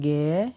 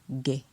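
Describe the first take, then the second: First: The syllable has a rising tone. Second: The syllable has a low tone. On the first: "Avec un ton montant" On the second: "Avec un ton bas"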